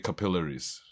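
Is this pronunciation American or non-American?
non-American. It uses the other accent's unusual stress pattern. "you guys all say capillaries"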